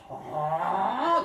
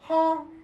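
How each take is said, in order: First: The pitch rises toward the end. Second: The pitch stays high and level. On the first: The speaker is asking what was said. "Second tone is like" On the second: The speaker does not understand. "First tone"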